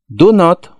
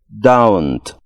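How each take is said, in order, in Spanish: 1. Se dice como dos palabras completas separadas. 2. Se dice como una sola palabra contraída. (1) "Unimos las dos palabras para formar una" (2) "con el mismo sonido en la O como en hello"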